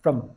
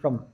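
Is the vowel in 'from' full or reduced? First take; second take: reduced; reduced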